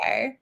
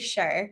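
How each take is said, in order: First: It is said the English way. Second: It is said the Scottish way.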